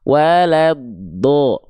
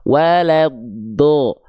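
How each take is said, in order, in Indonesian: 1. Vokal akhir terdengar seperti O yang tebal. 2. Vokal akhir terdengar seperti O yang tebal.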